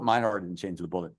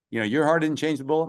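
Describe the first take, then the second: First: "My" set apart and stressed, the rest lower and softer. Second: Said in the usual way. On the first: Real, not acted. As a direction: lean on "My", then let the line drop. Correcting your to my.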